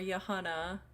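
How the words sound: The name is said with a Dutch pronunciation. "English versus Dutch pronunciations"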